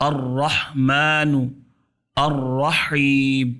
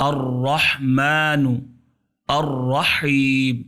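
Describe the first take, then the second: No difference in how they are said.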